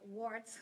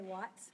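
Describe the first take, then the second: First: The R sound is clearly pronounced. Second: The R sound is dropped, Boston style. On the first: "I have to say that with an R in it" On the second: "in Boston we say watts"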